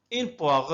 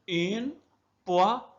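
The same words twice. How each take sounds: First: Said in the usual way. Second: "Une poire" in separate beats with short pauses; syllable by syllable. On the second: Shown as a demonstration. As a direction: sound out "Une poire" piece by piece. (تقطيع "Une poire" إلى مقاطع منفصلة) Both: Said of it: "أقسم الكلمة إلى مقاطع رئيسية".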